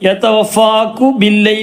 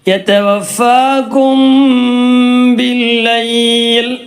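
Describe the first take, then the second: First: The m is left out completely. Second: The m is hidden and merged into b. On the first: The speaker calls it wrong. "എന്ന് പറയാൻ പറ്റൂല" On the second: The speaker calls it right. "ആ രൂപത്തിൽ പറയാം"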